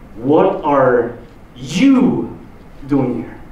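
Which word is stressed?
you. The stress is on the word you.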